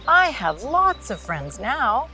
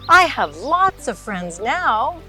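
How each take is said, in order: First: It is said at a normal, softer volume. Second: It is said very loudly.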